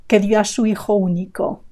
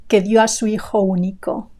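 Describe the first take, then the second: Both takes have the same delivery.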